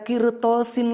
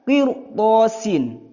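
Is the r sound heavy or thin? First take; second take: thin; heavy. First: The r sound is thin and light. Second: The r sound is heavy and full. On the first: The speaker calls it wrong. "bukan dibaca kirtosin lagi" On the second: The speaker calls it right. "karena ini huruf isti'la"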